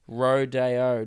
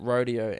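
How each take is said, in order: First: The middle syllable sounds like 'day'. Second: The middle syllable sounds like 'dee'. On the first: It names the ute. The speaker calls it right. "Spelled R O, the word day, then the letter O. ... the ute is pronounced rodeo" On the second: It names the riding event. The speaker calls it wrong. "not rodeo"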